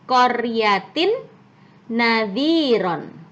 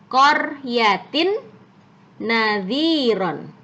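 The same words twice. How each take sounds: Both takes have the same delivery.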